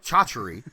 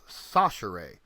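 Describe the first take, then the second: First: The name begins with a 'ch' sound. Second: The name begins with an 's' sound. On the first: This is how the spelling looks. The speaker calls it wrong. "it looks like Chachery" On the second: This is how the family says it. The speaker calls it right. "it's pronounced Sachere"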